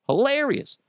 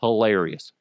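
First: HILARIOUS pitched way up, then falling; high-pitched emphasis. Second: Said in the usual way. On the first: Real, not acted. Host repeating his verdict on Danny DeVito, high-pitched "Hilarious".

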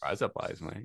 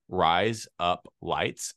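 First: Soft Australian "Rise up lights, mate", run together; Australian accent. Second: "Rise up lights" word by word, very slowly; slow demonstration. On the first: Showing a friend the trick, Australian accent. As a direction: blend "Rise up lights" into Australian razor blades. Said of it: "teach somebody an Australian accent". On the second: Teaching an Australian accent trick, slow word-by-word demo. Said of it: "it sounds like razor blades in Australian". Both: Shown as a demonstration.

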